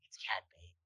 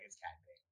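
First: It is whispered. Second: It is said aloud, excitedly.

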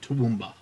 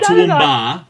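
First: The final vowel is short. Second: The final vowel is long and drawn out. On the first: The speaker calls it right. "There is no elongated A. It's a short A" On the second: The speaker calls it wrong. "Not Toowoomba"

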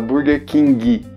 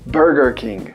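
First: King ends with an added i vowel sound. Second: King ends on the consonant with no vowel. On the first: The speaker calls it wrong. "O pessoal fala Burger King. Esse i no final a gente vai cortar" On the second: The speaker calls it right. "a pronúncia do inglês"

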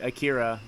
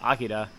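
First: The name is said with English-style pronunciation. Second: The name is said with Japanese-style pronunciation. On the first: This is how most people say it. The speaker calls it wrong. "Akira is what everybody calls it" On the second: This is the original pronunciation. The speaker calls it right. "that's the correct pronunciation"

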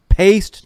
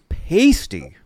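First: The name is said as one syllable. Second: The name is said as two syllables. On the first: "our friend Robbie says it's pronounced paste" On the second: "I always heard it was pasty"

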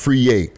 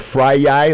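First: The first word sounds like 'free'. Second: The first word sounds like 'fry'. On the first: The speaker calls it right. "But now I know it's pronounced Free Ye" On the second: The speaker calls it wrong. "I would have called him Fry Yai like about a year ago"

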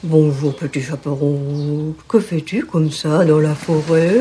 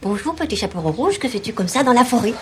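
First: It is said in a hoarse wolf voice. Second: It is said in a normal voice.

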